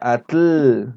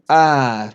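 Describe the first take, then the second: First: The tl is a plain t followed by l. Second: The tl releases air hissing past the tongue's sides. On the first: The speaker calls it wrong. "no es atl" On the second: The speaker calls it right. "pero en realidad es atl"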